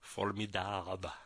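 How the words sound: The word is pronounced with French sounds.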